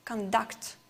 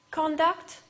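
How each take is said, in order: First: "conduct" as a verb, con-DUCT; reduced con, stressed DUCT in "conduct"; stress on last syllable. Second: "conduct" as a noun, CON-duct; "conduct" with strong opening, weak duct; stress on first syllable. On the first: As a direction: lean on the end of "conduct". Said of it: "the last syllable is stressed". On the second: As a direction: punch CON in "conduct", full o vowel. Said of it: "has the first syllable stressed". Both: Shown as a demonstration.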